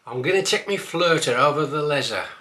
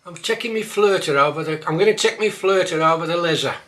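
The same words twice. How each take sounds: First: Said in the usual way. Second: Broad Black Country, a touch louder; Black Country dialect line. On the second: Shown as a demonstration. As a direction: say it like a local. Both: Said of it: "might catch you out".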